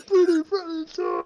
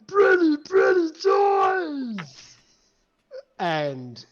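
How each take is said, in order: First: Booming monster voice. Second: High, wailing monster shout; booming arrogant alien overlord. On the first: GM repeats monster line. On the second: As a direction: roar it out like a giddy giant. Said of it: "this booming voice roar out". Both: Acted.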